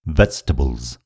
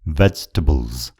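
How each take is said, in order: First: The middle vowel is dropped, giving fewer syllables. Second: The middle vowel is dropped, giving fewer syllables.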